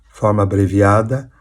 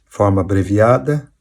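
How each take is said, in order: No difference in how they are said.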